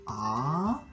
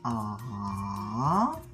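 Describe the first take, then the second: First: It is said with the second Mandarin tone. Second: It is said with the third Mandarin tone. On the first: "Pour le deuxième" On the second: "Troisième"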